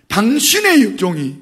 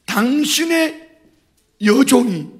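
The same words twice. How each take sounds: First: Said in the usual way. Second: 당신의 stretched very slowly and higher; drawn out. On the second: Shown as a demonstration. Preacher lingers on 당신의 to stress Hannah's humility. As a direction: linger on 당신의 before 여종이. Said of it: "이렇게 말해요".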